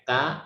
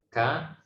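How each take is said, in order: First: The consonant is released without a puff of breath. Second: The consonant is released with a puff of breath. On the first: The speaker calls it wrong. "biasanya pakai ka atau ta" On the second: The speaker calls it right. "harusnya yang benar adalah ka"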